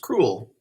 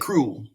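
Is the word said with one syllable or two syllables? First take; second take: two syllables; one syllable. First: The word is split into two syllables. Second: The word is squeezed into one syllable. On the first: This shows how the word is really built. "It's actually two syllables" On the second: This is the everyday way people say it. "we usually say cruel, one consonant"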